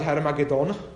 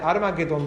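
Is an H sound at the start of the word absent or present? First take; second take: present; absent. First: The word begins with an H sound. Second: The word begins without an H sound. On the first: This form follows the biblical text closely. "je v podstate tesne s písmom" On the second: This form is the majority usage in everyday Slovak. "Je to bez toho H"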